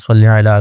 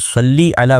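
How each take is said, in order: First: The first word ends with an 'ay' vowel. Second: The first word ends with an 'ee' vowel. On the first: This is the common local way of saying it. "सल्ले भी हमारे यहाँ बहुत ज़्यादा मारूफ है, हमारे अ, मुल्क में अल्लाहुम्मा सल्ली अला लोग कहते हैं" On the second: This is the Arabic way of saying it. "सल्ली अला वैसे ये सही तलफ़्फ़ुज़ है"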